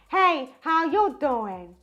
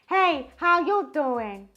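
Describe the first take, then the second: First: The voice sounds bright, thin and intense. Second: The same.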